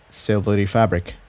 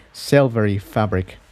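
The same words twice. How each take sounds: The two takes are said the same way.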